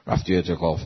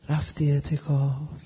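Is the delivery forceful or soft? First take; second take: forceful; soft. First: It is said strongly and forcefully. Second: It is said softly and gently. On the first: Spirituality has made the person strong. The speaker calls it right. "این لحنش اینجوریه ها" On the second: Spirituality has made the person delicate. The speaker calls it wrong. "این الان چجوری صحبت میکنن؟"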